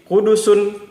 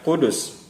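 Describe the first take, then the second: First: The word ends with an extra -un syllable. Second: The word ends on a bare consonant sound. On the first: "Seperti Kudusun" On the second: "dibaca Kudus"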